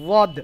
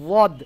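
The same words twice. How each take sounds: The two takes are said the same way.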